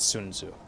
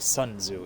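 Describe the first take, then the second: First: The name is said with a Chinese-style vowel. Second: The name is said with an English-style vowel. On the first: The speaker calls it right. "the actual Chinese pronunciation" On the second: The speaker calls it wrong. "It's not actually"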